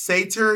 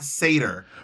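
First: The word does not sound like 'seder'. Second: The word sounds like 'seder'. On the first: The speaker calls it right. "It's pronounced satyr" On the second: The speaker calls it wrong. "not satyr"

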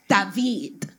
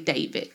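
First: The name is said with a Spanish accent. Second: The name is said with an American English accent.

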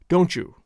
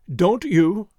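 First: The two words are run together as one. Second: The two words are said clearly separated. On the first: "This is much better" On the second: "making two separate and distinct words of it"

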